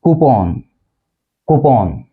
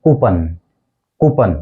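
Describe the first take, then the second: First: कूपन with open O, koo-pon; exact pronunciation. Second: कूपन with short ending, koo-pun; common mispronunciation. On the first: Teacher modelling exact pronunciation, कूपन as koo-pon. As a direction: end कूपन on a rounded "pon". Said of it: "exact pronunciation है". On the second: Teacher showing what we say, कूपन as koo-pun. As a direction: end कूपन on a quick "pun". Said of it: "इसको हम बोलते हैं". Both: Shown as a demonstration.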